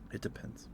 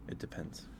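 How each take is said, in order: Both takes have the same delivery.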